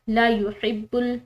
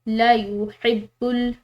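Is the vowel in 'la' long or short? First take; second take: short; short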